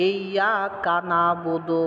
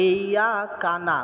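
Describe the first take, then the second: First: Slow, with ইয়াকা and নাবুদু kept apart; correct pronunciation. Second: Slow, ইয়াকা না run together so it sounds like কানা; wrong joining. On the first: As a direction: recite it slowly, words kept apart. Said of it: "এই কানা কখন বলা যাবে না". (সঠিকভাবে ধীরে ইয়াকা নাবুদু) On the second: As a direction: show the mistake of merging into কানা. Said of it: "ওই যে কানা বলতেছে". (ভুল করে কানা জুড়ে বলা) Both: Shown as a demonstration.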